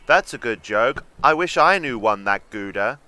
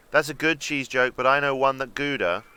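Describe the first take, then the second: First: Louder mocking reply. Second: Plain. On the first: Shown as a demonstration. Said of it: "I think I'd have gone with". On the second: Acted. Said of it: "I'd have taken it the other way".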